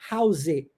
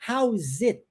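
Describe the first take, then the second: First: The final T sound is swallowed and dropped. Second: The final T sound is clearly pronounced. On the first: "eu omito ele, eu digo how's it. Ó, engoli" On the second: "ao invés de eu dizer how is it, tá vendo esse t do T?"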